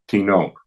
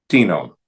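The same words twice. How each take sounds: First: "tinon" as ti-NON; stress on last syllable. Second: "tino" as TI-no, falling; stress on first syllable. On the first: Teacher closing neuter indefinites, ti-NON stressed last. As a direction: put the weight on NON in "tinon". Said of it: "en la última sílaba". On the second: Teacher closing neuter interrogatives, TI-no stressed up front. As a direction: hit the TI of "tino", let no drop. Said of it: "la primera sílaba". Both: Shown as a demonstration.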